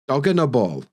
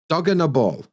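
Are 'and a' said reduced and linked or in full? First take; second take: reduced; reduced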